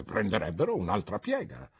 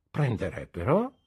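First: Said in the usual way. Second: "Prenderebbero" with a rise at the end; "Prenderebbero" thrown back as a rising question; questioning echo. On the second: A narrator's reading. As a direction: query the word "Prenderebbero". Aunt echoes his word as question.

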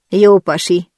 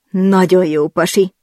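First: Said in the usual way. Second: "nagyon" stretched and lifted, slowed a little; stress on nagyon. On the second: Acted. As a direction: lean hard on "nagyon", rising on it. (hangsúly a "nagyon" szón, elnyújtva)

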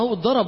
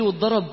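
First: Said in the usual way. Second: Retold friend's question, rising at the end; questioning echo. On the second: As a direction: ask it back with a rise. Retold friend asks if he was beaten.

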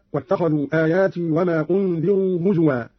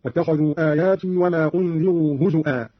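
First: Said in the usual way. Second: هزوا with a glottal stop, "huzu'a"; hamza for waw. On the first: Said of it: "قرأ قالون بهمز الواو". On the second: Shown as a demonstration. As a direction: break هزوا before the final vowel, hu-zu-'aa. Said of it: "بهمز الواو هكذا".

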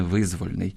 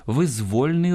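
First: Визвольний stressed on the first syllable, ВИЗ-; wrong stress. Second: Визвольний stressed on -ЗВОЛЬ-; correct stress. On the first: (наголос на першому складі: визвольний) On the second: (наголос на другому складі: визвольний) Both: Shown as a demonstration. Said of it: "а не визвольний".

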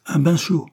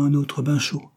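First: Higher scornful echo, rising at the end; ironic. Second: Said in the usual way. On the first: A narrator's reading. Servant echoing the hot-bath advice, ironic. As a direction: throw the words back in ironic disbelief. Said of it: "répéta-t-elle ironiquement".

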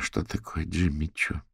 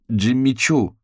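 First: Said in the usual way. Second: Higher, louder scoffing correction; disdainful, raised-voice correction; scornful snort. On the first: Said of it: "ответила Фиона". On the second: A narrator's reading. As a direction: scoff the brand name at a friend. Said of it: "фыркнула Софи".

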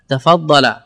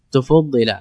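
First: Said in the usual way. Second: تفضل said as tufuddila, u on the first two letters; tufuddila, rounding the opening vowels; passive form. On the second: Shown as a demonstration. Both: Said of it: "active then passive demo".

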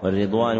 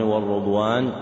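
First: والرضوان with a short i after the r, "war-ridwan"; kasra on the ra. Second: والرضوان with a short u after the r, "war-rudwan"; damma on the ra. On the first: (والرضوان بكسر الراء) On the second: (والرضوان بضم الراء) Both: Shown as a demonstration. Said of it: "بكسر الراء وضمها لغتان صحيحتان".

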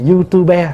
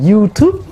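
First: YouTuber in three syllables, "you-tu-be"; letter-by-letter reading. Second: YouTube in two syllables, "you-tube"; American reading. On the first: Monk shows how others read it, letter-by-letter pronunciation. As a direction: sound the final e of YouTuber as "be". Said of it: "người ta phiên âm từng chữ". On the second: Monk gives an everyday example to the assembly, American pronunciation. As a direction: say YouTube as in English, final e silent. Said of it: "mình đọc theo tiếng Mỹ". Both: Shown as a demonstration.

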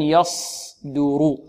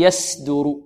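First: Slow, softer "يصدر" with thick ص; correct heavy sad. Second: "يسدر" with a thin s; seen for sad. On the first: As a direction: hold a heavy ص in "يصدر", not س. Correct sad after the seen contrast. ("يصدر" بصاد مفخمة) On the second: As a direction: swap the heavy ص for a light س in "يسدر". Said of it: "أن ننطقها سين". ("يسدر" بسين مرققة) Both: Shown as a demonstration.

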